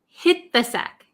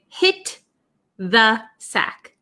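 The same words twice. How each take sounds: First: The T of 'hit' is nearly silent, linked. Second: The T of 'hit' is clearly released. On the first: The speaker calls it right. "So this T almost becomes silent and it links with this T H" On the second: The speaker calls it wrong. "We don't really say hit the sack"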